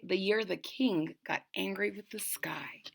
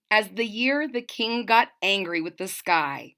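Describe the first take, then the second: First: Breathy hushed whisper; soft storyteller's whisper. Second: Said in the usual way. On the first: A narrator's reading. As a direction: whisper it like a secret to the kids. Whispered retelling of the title.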